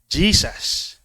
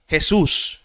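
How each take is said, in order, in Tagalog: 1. Binibigkas ang pangalan sa paraang Ingles. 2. Binibigkas ang pangalan sa paraang Tagalog. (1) "In English" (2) "Sa Tagalog"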